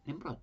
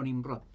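First: Nemrod with an e in the first syllable and a soft ending, NEM-bro; preferred pronunciation. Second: Nimrod with an i in the first syllable, NIM-rod; alternative pronunciation. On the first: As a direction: settle back on Nemrod, e vowel, final d nearly dropped. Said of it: "Se llamaba Nemrod". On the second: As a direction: say Nimrod as the variant spelling sounds, with a clear i. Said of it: "Se llamaba Nemrod, o Nimrod". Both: Shown as a demonstration.

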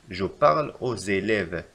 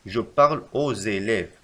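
First: Slow, even reread; slow repeat. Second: Slow, careful correction; slow dictation. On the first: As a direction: repeat it slowly. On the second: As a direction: dictate the correct form slowly. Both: Shown as a demonstration. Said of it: "يجب علينا أن نكتب".

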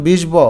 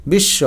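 First: বিষ ব said as "bish-bo", b fully sounded; wrong, b sounded. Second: বিশ্ব said as "bish-sho", no b; doubled sh, silent b. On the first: Teacher showing the mistake, বিষ ব with sounded b. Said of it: "এরকম কিন্তু হয় নাই". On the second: Teacher showing silent b-fola, বিশ্ব as "bish-sho". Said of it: "স কিন্তু দুইবার হলো". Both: Shown as a demonstration.

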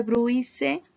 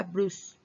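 First: Bruise read letter by letter, "bru-i-se"; spelled-out bruise. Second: Bruise said "brus", one syllable; English bruise. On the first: Teacher spelling bruise aloud for students. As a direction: sound out bruise as it is written. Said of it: "se escribe bruise, pero se pronuncia bruise". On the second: Teacher modeling real bruise for students. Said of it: "pero se pronuncia bruise". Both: Shown as a demonstration.

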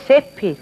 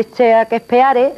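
First: Shakespeare said short as "Shéspir", fast and clipped; English-style Shakespeare. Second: Shakespeare read letter by letter as "Sha-ke-spe-a-re", slowly; spelled-out Shakespeare. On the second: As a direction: sound out Shakespeare syllable by syllable as written. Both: Retold or imitated. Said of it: "Se dice Shakespeare".

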